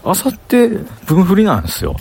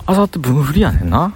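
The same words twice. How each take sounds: First: Said in the usual way. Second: あさって分振りやねんな in Kansai intonation, lifting at the end; Kansai dialect. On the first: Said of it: "関西弁じゃない、標準語な". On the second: Shown as a demonstration. Vlogger practising Kansai speech for hosting, Kansai dialect. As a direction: say あさって分振りやねんな in casual Kansai dialect, final な rising. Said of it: "関西弁の喋り方今から作るわ".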